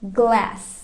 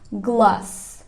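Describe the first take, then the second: First: The vowel is a flat, e-like a sound. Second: The vowel is a broad, open ah sound. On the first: This is the American pronunciation. "Kalau Americannya dia pakai E" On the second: This is the British pronunciation. "Untuk orang British dia dibaca A"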